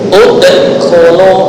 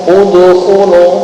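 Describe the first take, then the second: First: The bounced d ends in a glottal stop. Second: The bounced d leans toward an u sound. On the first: "diakhiri dengan hamzah sukun ... itu yang kurang tepat" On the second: "seolah-olah dalnya condong ke harokat dhamma"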